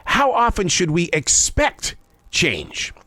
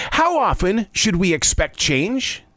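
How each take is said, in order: First: Slow, with weight on "expect" and a pause before "change"; insistent repeat. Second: Said in the usual way. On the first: Shown as a demonstration. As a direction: press the question, stretching "expect", dropping on "change". Pressing the question a second time.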